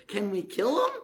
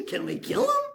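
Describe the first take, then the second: First: Said in the usual way. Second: Much higher squeaky eager plea, rising at the end; an overexcited kid begging permission; mock eager squeak. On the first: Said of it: "the king of Israel goes". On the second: King asking Elisha if he can kill the blinded enemy, eager. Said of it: "Said Elisha".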